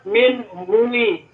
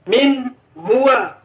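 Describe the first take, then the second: First: The second word ends with an 'i' vowel. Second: The second word ends with an 'a' vowel. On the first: The speaker calls it wrong. "harusnya ini dibaca min huwi" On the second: The speaker calls it right. "Harokatnya tetap di atas fathah"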